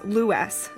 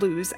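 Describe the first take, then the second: First: The name is said the local way. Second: The name is said the outsider way. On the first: The speaker calls it right. "that is Lewes" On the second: The speaker calls it wrong. "not Lewes, as is commonly mispronounced"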